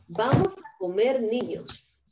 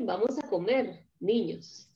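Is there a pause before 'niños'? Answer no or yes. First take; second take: no; yes. First: The words run together with no pause before 'niños'. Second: There is a short pause before 'niños'. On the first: The children are going to be eaten. The speaker calls it wrong. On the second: The children are told it is time to eat. The speaker calls it right.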